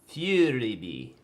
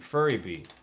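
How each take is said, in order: First: The first syllable sounds like 'few'. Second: The first syllable sounds like 'fur'. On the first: It is the corrected pronunciation. The speaker calls it right. "Yeah, it's Fury Bee" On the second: It is read the way it is spelled. The speaker calls it wrong. "I always just called it Furry Bee, because that's what the hell it says"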